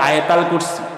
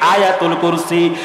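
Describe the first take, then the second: First: The first word is said as 'ayatal'. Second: The first word is said as 'ayatul'. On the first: The speaker calls it wrong. "যারা বাঙালিরা কয় আয়াতাল কুরসি, এটা বিকৃত উচ্চারণ" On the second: The speaker calls it right. "Exact pronunciation হচ্ছে আয়াতুল কুরসি"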